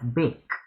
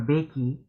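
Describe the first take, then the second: First: The word ends on the K sound. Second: An extra vowel sound is said at the end. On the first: The speaker calls it right. "we pronounce it as bake, because the E is silent" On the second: The speaker calls it wrong. "we don't pronounce it as bakey"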